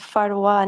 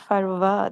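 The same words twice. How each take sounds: First: The middle consonant is a w sound. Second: The middle consonant is a v sound. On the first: The speaker calls it right. "It's Farwa" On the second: The speaker calls it wrong. "not Farwa then, because there is no va"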